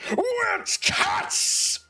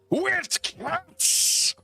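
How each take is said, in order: First: It is said with big, bold energy. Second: It is said in a reserved, restrained way.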